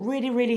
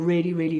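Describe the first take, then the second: First: The voice is pitched very high. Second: The voice is pitched very low. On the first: "really high up here" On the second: "really low down here"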